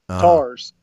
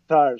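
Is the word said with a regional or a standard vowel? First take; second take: regional; standard. First: The vowel is flattened so it sounds like 'tars'. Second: The vowel is the standard 'eye' diphthong.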